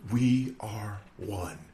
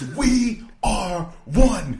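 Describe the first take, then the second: First: The phrase is said weakly, without force. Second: The phrase is said forcefully, with passion. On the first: The speaker calls it wrong. "this guy's delivery, just saying it's so weak" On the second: The speaker calls it right. "With passion, with conviction"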